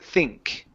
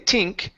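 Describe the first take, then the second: First: The word begins with a soft TH sound. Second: The word begins with a hard T sound. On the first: The speaker calls it right. "you want to use your theta" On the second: The speaker calls it wrong. "that's more like a T"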